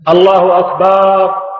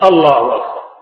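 First: The vowel after the b is drawn out long. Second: The vowel after the b is short. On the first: It changes the word to mean drums. The speaker calls it wrong. "وكذلك لا يمد الباء، فلا يقول" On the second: It means God is greater. The speaker calls it right. "بل يقول الله أكبر"

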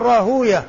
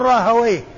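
First: The ending sounds like long u, then -yah. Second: The ending sounds like short a, then -wayh. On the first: This is the form hadith scholars use. "المحدثون يقولون راهوية" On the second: This is the form language scholars use. "واللغة يقول راهويه"

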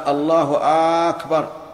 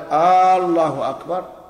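First: The opening vowel of Akbar is lengthened. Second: The opening vowel of Allah is lengthened. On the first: "ولا في الثاني" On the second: "يمد الهمزة لا في الجزء الأول منها"

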